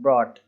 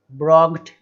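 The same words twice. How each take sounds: First: Said in the usual way. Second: "ब्रॉग्ड" with a hard g, said louder; wrong pronunciation. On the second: Shown as a demonstration. Teacher demonstrating the wrong way to say brought. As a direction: spit out the silent gh as a g. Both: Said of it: "इस तरीके से नहीं बोलना है".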